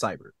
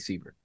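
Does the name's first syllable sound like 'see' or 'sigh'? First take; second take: sigh; see. First: The first syllable sounds like 'sigh'. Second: The first syllable sounds like 'see'. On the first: The speaker calls it right. "Everyone else knew my name was Cyber" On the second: The speaker calls it wrong. "he called me Siebert for whatever fucking reason"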